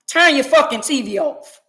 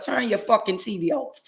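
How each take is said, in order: First: It is said loudly. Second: It is said at normal volume.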